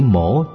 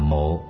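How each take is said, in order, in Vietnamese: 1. Thanh điệu xuống rồi lên. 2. Thanh điệu thấp, ngắn và có thanh hầu. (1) "Chữ mổ" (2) "chứ không phải là mộ"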